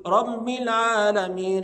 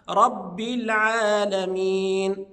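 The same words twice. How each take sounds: First: Loud, slow "رب" pushed through the nose; nasalized ba. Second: Loud, very slow "رب" with firm b; oral doubled ba. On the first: Retold or imitated. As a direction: hum the b of "رب" nasally. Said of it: "يخرجها من الخيشوم". (إخراج باء "رب" من الخيشوم خطأً) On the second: Shown as a demonstration. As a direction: press the b of "رب" with no nasal hum. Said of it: "وإنما". (نطق "رب" بباء مشددة دون غنة)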